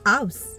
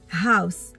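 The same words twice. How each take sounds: First: The word starts with no h sound. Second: The word starts with a breathy h sound. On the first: The speaker calls it wrong. "On ne dit pas house" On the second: The speaker calls it right. "le house en anglais, c'est pareil que le ha"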